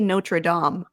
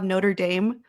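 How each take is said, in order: First: The name is said with its original pronunciation. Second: The name is said with an Americanized pronunciation. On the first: This is how the name should properly be said. The speaker calls it right. "It should be Notre Dame" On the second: This is the form people commonly got attached to. The speaker calls it wrong. "you know how we have Notre Dame?"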